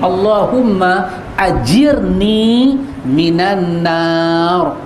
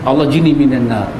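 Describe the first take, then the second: First: The opening is said in full as 'Allahumma ajirni'. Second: The opening is clipped to 'Allah jini'. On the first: The speaker calls it right. "Bukan jini" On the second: The speaker calls it wrong. "Duk dengar Allah jini minan nar"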